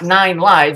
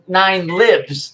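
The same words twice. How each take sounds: First: The vowel in 'lives' is long, as in 'hives'. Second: The vowel in 'lives' is short, as in 'gives'. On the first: The cat has nine lives to lose. The speaker calls it wrong. "It's not nine lives" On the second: A power is alive and ruling now. The speaker calls it right. "it's nine nine lives ... It lives. It's alive"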